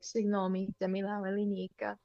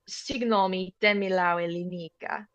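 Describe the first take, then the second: First: It is said gently and nicely. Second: It is said forcefully and aggressively.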